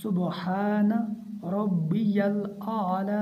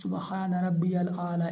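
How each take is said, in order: First: Slow chant, distinct ya in "रब्बियल"; ya made clear. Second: Quick "रब्बियल" with the ya glossed over; unclear ya. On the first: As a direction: sound the ya of "रब्बियल" fully, unhurried. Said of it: "या को जाहिर करके पढ़ना है". ("रब्बियल" में या ज़ाहिर करके) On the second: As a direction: hurry through "रब्बियल" without sounding the ya. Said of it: "ऐसे नहीं पढ़ना". ("रब्बियल" की या ज़ाहिर किए बिना) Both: Shown as a demonstration.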